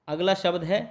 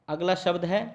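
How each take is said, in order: The two takes are said the same way.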